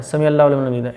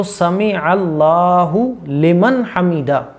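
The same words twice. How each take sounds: First: "समी अल्लाहु लिमन हमीदा" run into one blur; rushed mistaken recitation. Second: Slow "समी अल्लाहु लिमन हमीदा" with long vowels; unhurried correct recitation. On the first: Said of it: "ऐसे नहीं पढ़ना है". ("समी अल्लाहु लिमन हमीदा" हड़बड़ी में, मिलाकर) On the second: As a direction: take each word of "समी अल्लाहु लिमन हमीदा" separately. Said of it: "आराम से।". ("समी अल्लाहु लिमन हमीदा" आराम से, साफ़) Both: Shown as a demonstration.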